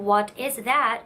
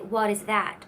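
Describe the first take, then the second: First: The t in 'what' is a crisp t. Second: The t in 'what' is a quick flap. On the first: The speaker calls it wrong. "Instead of saying" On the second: The speaker calls it right. "you say"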